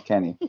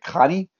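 First: The name is said the speaker's own way. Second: The name is said the way Swiss speakers said it. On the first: This is how the name is meant to sound. The speaker calls it right. "I was like, no" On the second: Someone else said it this way. The speaker calls it wrong. "they were just like"

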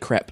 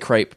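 First: It is said the English way. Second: It is said the American way, vowel drawn out. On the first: "In England, we say crepe because that's how it's spelt" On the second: "Americans say crepe"

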